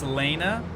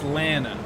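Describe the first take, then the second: First: The first vowel does not rhyme with Hannah. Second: The first vowel rhymes with Hannah. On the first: The speaker calls it wrong. "my name is said with a long A" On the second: The speaker calls it right. "Rhymes with Hannah"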